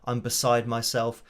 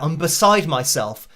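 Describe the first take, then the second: First: It is said on one flat, unchanging pitch. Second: It is said with the pitch moving up and down. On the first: The excitement does not come across. The speaker calls it wrong. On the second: The speaker sounds genuinely excited. The speaker calls it right.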